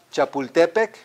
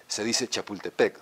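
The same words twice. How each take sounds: First: "Chapultepec" stressed on TE, the next-to-last syllable; higher, louder "Chapultepec" with penultimate stress; Nahuatl stress. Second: Imitated correction, "Chapultepec" stressed on final PEC; mock Spanish correction with last-syllable stress on "Chapultepec"; correcting taxi driver. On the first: Shown as a demonstration. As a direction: say "Chapultepec" as cha-pul-TE-pec. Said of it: "As opposed to what?". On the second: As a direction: lower voice, correcting to cha-pul-te-PEC. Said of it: "will probably turn around and correct you".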